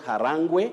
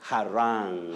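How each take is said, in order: First: The word ends with an extra 'gweh' syllable. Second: The word ends cleanly on the 'rang' syllable. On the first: The speaker calls it wrong. "Not harangwe" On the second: The speaker calls it right. "you say rang, harang"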